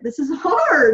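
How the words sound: It sounds positive and a little excited.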